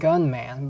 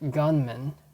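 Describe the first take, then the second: First: The last syllable has a full 'man' vowel. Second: The last syllable is reduced to 'mun'. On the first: The speaker calls it wrong. "Not gunman" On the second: The speaker calls it right. "but gunman"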